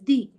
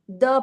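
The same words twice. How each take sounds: First: The word ends with an 'ee' vowel. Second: The word ends with an 'uh' vowel. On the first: The next word starts with a vowel. "office starts with a o, which is a vowel. Okay, that is why I pronounce the as the" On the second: The next word starts with a consonant. "if I have to use the for a non vowel word"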